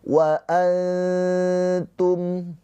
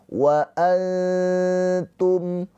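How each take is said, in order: Both takes have the same delivery.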